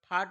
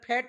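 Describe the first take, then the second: First: The vowel is a long open 'aa' sound. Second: The vowel is a flat front 'ae' sound. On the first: The speaker calls it wrong. "फाट म्हणत नाही" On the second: The speaker calls it right. "म्हणून त्याला फॅट म्हणतात"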